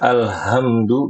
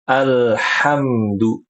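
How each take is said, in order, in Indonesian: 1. H-nya h biasa, lembut dan berhembus. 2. H-nya h serak dari tenggorokan. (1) "nggak boleh ibu-ibu ya dibaca alhamdu, nggak boleh" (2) "Latihan alhamdu. Nah kayak gitu"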